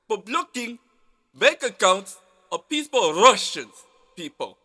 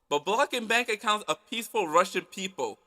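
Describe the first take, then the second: First: It is said in a put-on Russian accent. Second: It is said in the speaker's ordinary accent. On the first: The speaker calls it right. "Let me say that with a Russian accent" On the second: The speaker calls it wrong. "I think I said that wrong"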